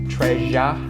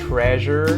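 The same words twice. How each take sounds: First: The final R is dropped, ending in a flat vowel. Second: The final R is sounded with a curled tongue. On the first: The speaker calls it right. "we don't curl the tongue up to make the R sound" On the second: The speaker calls it wrong. "That is a very American sound with that R sound"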